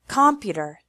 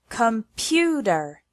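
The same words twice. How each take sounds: First: The stress is on the first syllable. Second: The stress is on the second syllable. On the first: The speaker calls it wrong. "If we put the stress on the first or third syllable" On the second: The speaker calls it right. "the stress is on the second one"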